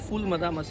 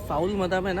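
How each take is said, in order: First: The first word has an 'oo' vowel, like 'fool'. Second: The first word has an 'ow' vowel, like 'fowl'. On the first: The speaker calls it right. "ফুল মাদামা সেটা" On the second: The speaker calls it wrong. "নামটা একটু ভুল বলেছিলাম আগে"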